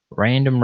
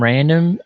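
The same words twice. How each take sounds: First: Said in the usual way. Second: Random pitched higher and louder, rising at the end; playful echo of random; amused emphasis. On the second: Real, not acted. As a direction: make the second random pop up and ring out. Repeats a comment name aloud.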